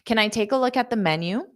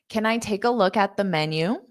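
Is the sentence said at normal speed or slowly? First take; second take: normal; slowly. First: The sentence is said at normal speed. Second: The sentence is said slowly.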